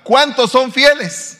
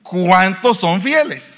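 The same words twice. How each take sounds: First: ¿cuántos son fieles? called out high, loud and slow; loud, slow call to the congregation. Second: Slow call. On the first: Preacher calling to the congregation, loud, high and slow. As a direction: demand an answer from the congregation. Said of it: "voy a preguntar". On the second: Preacher asking the congregation, slow and emphatic. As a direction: drag it out for answers. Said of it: "voy a volver a preguntar". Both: Real, not acted.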